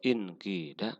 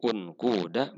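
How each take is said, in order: First: The long vowel is a clear i sound. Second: The long vowel is a rounded u sound.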